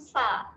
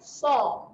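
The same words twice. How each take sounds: First: The s sound is light and thin. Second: The s sound is heavy and thick. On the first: The speaker calls it wrong. "bukan sa. Sa salah eh" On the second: The speaker calls it right. "huruf tebal iaitu huruf sad, kita bunyikan dengan sa"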